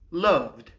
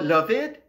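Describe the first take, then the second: First: The ending is a short d sound. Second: The ending is an extra id syllable. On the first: The speaker calls it right. "avec le son de" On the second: The speaker calls it wrong. "Pourquoi pas loved? Parce que l'infinitif love se termine pas en D ou T"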